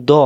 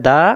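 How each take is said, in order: First: Rounded, thick "দ"; heavy d with o colour in "দ"; heavy DAD. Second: Open, light "দা"; thin d with open aa in "দা"; light DAL. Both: Shown as a demonstration. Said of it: "আজকে থেকে আমরা পার্থক্য করবো".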